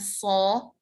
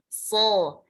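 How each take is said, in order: First: The vowel is said with rounded lips. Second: The vowel is said with unrounded lips. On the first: The speaker calls it wrong. "bukan so" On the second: The speaker calls it right. "so-nya itu tidak membulat"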